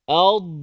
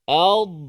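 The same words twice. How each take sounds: First: The final consonant is released with slight sound. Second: The same.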